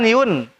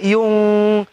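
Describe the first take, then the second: First: The final n is clipped short and clear. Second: The final n is nasalized and held longer. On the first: The speaker calls it wrong. "jangan yun" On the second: The speaker calls it right. "tapi yung, yung tiga harokat"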